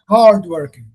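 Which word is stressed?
hard. The stress is on the first word. It is used before a noun. "The stress falls on the first word"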